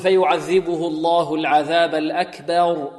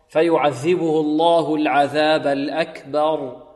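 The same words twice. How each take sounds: First: The vowel after b is tilted toward e. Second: The vowel after b is a plain a. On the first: The speaker calls it wrong. "فيميل فتحة الباء، وهذا خطأ" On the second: The speaker calls it right. "بدون تفخيم وبدون إمالة"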